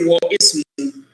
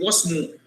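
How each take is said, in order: First: The i vowel is sounded after wa. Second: The i vowel is dropped, joining wa to smu. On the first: The speaker calls it wrong. "here you don't say wa ismu" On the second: The speaker calls it right. "You drop the kasra. Instead, you say wasmu"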